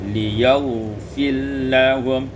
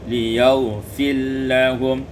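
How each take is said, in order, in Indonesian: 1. Huruf r menyatu penuh ke dalam l setelahnya. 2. Huruf r menyatu penuh ke dalam l setelahnya.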